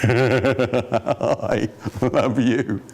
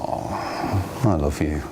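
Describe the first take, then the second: First: It is said laughing and mocking. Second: It is said low and warmly sincere.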